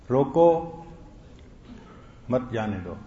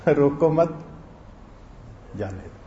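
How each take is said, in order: First: روکو alone, a long pause, then مت جانے دو as one phrase; pause after روکو. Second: Bind مت to روکو, stop, then drop right down on جانے دو; pause after مت. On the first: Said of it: "لکھنے والے کا مفہوم تھا کہ اس کو روک لو". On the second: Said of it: "اور اس نے مفہوم بنا کیا دیا؟". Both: Shown as a demonstration.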